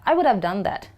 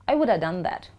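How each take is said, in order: No difference in how they are said.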